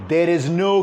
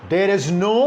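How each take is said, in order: The two takes are said the same way.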